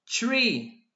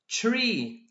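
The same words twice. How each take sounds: No difference in how they are said.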